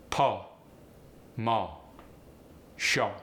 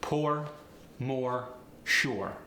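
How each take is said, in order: First: "Po, mo, sho" with open vowel, no R; R-less. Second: Said in the usual way. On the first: Shown as a demonstration. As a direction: drop the R entirely. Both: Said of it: "R-less pronunciations".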